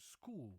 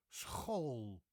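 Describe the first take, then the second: First: Said in the usual way. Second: School with a throaty ch and long O; Dutch pronunciation. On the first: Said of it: "which means school". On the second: Shown as a demonstration. Teacher giving Dutch example words, Dutch school. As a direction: say school as s-khohl. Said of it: "many interesting words in Dutch".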